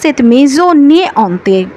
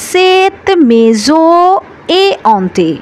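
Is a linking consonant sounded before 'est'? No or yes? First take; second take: yes; no. First: An n sound links the noun to the next word. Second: No consonant links the noun to the next word. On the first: The speaker calls it wrong. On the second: The speaker calls it right.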